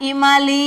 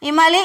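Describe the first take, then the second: First: ఇమలి drawn out as ఇమాలీ; long final vowel. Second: ఇమలి quick, with a short final లి; short vowels. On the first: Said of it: "ఇమలి అంటున్నాం". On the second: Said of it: "ఇమలి అనట్లేగా". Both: Shown as a demonstration.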